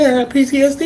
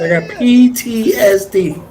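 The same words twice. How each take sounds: First: The phrase is said quickly. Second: The phrase is said more slowly. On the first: The speaker calls it wrong. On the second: The speaker calls it right.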